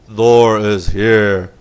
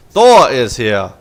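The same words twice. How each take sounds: First: Very slow, lower and louder mech voice; second, lower go at the Thor voice; deep Thor robot voice. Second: Slow, louder mock robot announcement; first try at a Thor unit voice. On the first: Pretend. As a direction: stretch every word like a lumbering war machine. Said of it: "That's how they talk". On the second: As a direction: boom it out slowly like a giant mech. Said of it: "that's how Thors talk".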